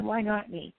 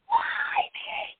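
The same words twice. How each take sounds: First: Said in the usual way. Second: High strained wail of despair; anguished cry. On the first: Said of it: "Then I said". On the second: Retold or imitated. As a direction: cry out to the sky, far above your voice. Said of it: "And I was like".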